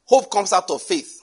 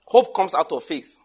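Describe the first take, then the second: First: Hope pressed harder, louder than the first take; emphatic repeat. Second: Said in the usual way. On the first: Shown as a demonstration. Preacher repeating Hope to the congregation, stressed emphatic. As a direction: lean on Hope and drive it home. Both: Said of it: "repeated for emphasis".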